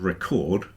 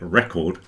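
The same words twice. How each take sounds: First: The stress is on the second syllable. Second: The stress is on the first syllable. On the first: It is a verb. "And if you move it to the second, you get record, which is a verb" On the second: It is a noun. "If you put the emphasis on the first syllable, you get record, which is a noun"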